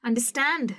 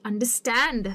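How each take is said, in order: First: understand once more, with the stress on stand; stress on last part, repeated. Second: understand with the stress on stand; stress on last part. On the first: (understand दोबारा, stand पर ज़ोर) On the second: (understand में stand पर ज़ोर) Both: Shown as a demonstration. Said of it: "understand है जो कि verb है".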